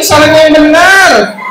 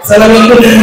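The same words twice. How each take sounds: First: Slow, higher-pitched correction; emphatic correction. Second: Lightly voiced puppet parroting; puppet's literal echo. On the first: Acted. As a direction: stretch each word in exasperated teaching. Teacher corrects puppet emphatically. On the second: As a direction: copy it back as the puppet.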